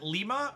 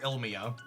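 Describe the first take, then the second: First: The name starts directly with the l sound. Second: The name starts with a vowel before the l.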